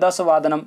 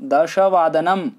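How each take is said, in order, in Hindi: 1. शब्द 'dasha' में सादा 's' बोला जाता है। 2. शब्द 'dasha' में 'sh' बोला जाता है। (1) "कभी कभी दस बोल देते हैं" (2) "दश पूरा है, पूर्ण तरह से बोलेंगे"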